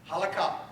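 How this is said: It is said the Sephardic way.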